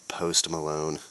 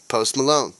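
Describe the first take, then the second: First: Said in the usual way. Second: Hammed-up announcer tag line, louder; mock ad sign-off. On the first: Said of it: "Do your taxes with [name]". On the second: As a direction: punch the name like a cheesy ad ending.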